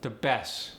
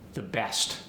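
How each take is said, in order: First: The final t sound is dropped. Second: The final t sound is pronounced.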